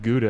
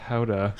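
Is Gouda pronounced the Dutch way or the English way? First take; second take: English; Dutch. First: The word has the usual English pronunciation. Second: The word has a Dutch-style pronunciation. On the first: The speaker calls it wrong. "it's not called Gouda" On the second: The speaker calls it right. "it's called Gouda"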